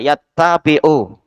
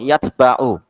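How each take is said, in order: First: The t sound is doubled and held. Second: The t sound is single and short. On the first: "Bi tasydidit ta ya" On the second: "boleh disukun"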